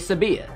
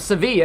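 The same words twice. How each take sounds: First: The middle consonant is a B sound. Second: The middle consonant is a V sound. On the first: "it'd be" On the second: "instead of"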